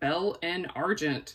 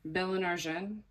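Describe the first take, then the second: First: The name is said in a Southern American accent. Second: The name is said in a French-style way. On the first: This is how it was first said, naively. "like a super hick that I am" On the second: This is the attempt at the proper pronunciation. "Is that how you say it?"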